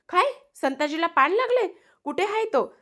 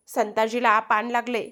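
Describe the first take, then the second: First: High-pitched, alarmed disbelief; shocked question. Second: Said in the usual way. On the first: Acted. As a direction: repeat the news in shock, pitch shooting up. Shocked listener repeats the news.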